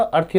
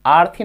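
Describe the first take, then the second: First: अर्थी with a short अ at the start; correct short vowel. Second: आर्थी with a long आ at the start; wrong long vowel. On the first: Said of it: "अर्थी होगा". (अर्थी में शुरू का छोटा अ) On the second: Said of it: "आर्थी नहीं होगा". (आर्थी में शुरू का लंबा आ) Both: Shown as a demonstration.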